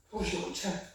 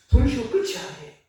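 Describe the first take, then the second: First: 부르시고 끝이 아니에요 repeated much softer; hushed repeat of 부르시고 끝이 아니에요; soft echo. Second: Said in the usual way. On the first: Shown as a demonstration.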